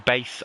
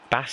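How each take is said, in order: First: The name rhymes with the word case. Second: The name rhymes with the word class. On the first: "It's probably Base" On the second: "I always say Bass"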